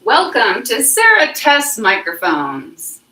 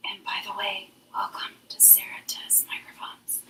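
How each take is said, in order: First: Slow, loud, singsong announcer welcome; loud show welcome. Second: Hushed, voiceless whisper. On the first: Host testing a new microphone, loud welcome. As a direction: belt out a drawn-out show intro. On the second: Host testing if the microphone catches it, whisper. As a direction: whisper the show welcome like a secret. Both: Shown as a demonstration.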